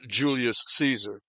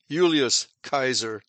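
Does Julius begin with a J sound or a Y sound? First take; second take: J sound; Y sound. First: Julius begins with a J sound. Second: Julius begins with a Y sound. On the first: The speaker calls it wrong. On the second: The speaker calls it right. "it was pronounced like a Y, as in Julius Caesar"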